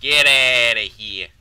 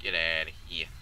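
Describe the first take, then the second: First: Loud, slow yelled dismissal; long, booming send-off; drawn-out yell. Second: Low-pitched get outta here; low, restrained brush-off; low dismissal. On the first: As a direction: bellow it, stretching out the words. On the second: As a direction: send them away in a low voice. Dismissal said low, then yelled. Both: Acted.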